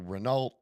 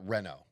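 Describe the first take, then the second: First: It is said the American way, with a final T. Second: It is said the French way, with a silent T. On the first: This is how Americans say it. "we always said Renault" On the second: This is how the racing world says it. "They call it Renault"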